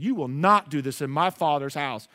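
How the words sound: It is said in a soft, firm tone.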